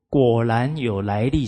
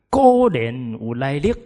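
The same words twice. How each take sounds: First: The phrase is spoken in Standard Mandarin. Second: The phrase is spoken in Southern Min. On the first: "果然有来历是普通话" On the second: "我念闽南话给你们听"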